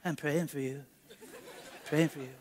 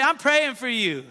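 First: Much softer, mumbled with a laugh; mock the shy congregation, barely audible; sheepish mumble set against a baseball crowd's screaming; timid church murmur. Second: Said out, firm and audible; confident church encouragement; out loud to neighbor. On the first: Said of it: "In here, you just say". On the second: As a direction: say it boldly to the person next to you. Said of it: "Come on, look to your neighbor and say". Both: Shown as a demonstration.

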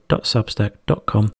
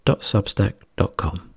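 The two takes are said the same way.

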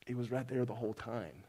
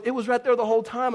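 First: Low, soft, grave delivery; hushed, lowered voice of God; quiet solemn verdict. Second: High, loud retold insistence; raised, high-pitched bickering voice; mock insistent. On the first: Retold or imitated. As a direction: state it quietly, as a final judgment. Voices God's verdict on judgment day. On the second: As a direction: imitate an exasperated wife insisting. Retells wife insisting in the argument.

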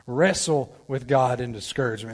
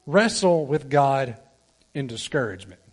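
First: Said in the usual way. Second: Slow, with weight on "wrestle", falling at the end; slow emphatic heading. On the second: Shown as a demonstration. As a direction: lean into "wrestle" and let the phrase drop. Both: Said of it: "Point number two".

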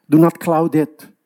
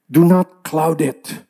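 First: Said in the usual way. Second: "Do not cloud it" slowed, each word weighted; slow emphatic repeat. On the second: Shown as a demonstration. Preacher repeating his warning, slow and emphatic. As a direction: lean on "Do" and drag it out.

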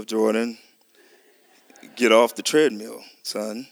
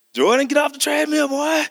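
First: Low, firm sergeant's order to his son; a hint of a drill sergeant calling his boy. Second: A much higher shouted order, aggressive and stern; more stern. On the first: A father low and firm, ordering his son off the treadmill. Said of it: "my voice was a little". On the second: Retold or imitated. A father shouting at his son to get off, stern. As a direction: yell it like you've lost patience. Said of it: "a little more aggressive and ... more stern".

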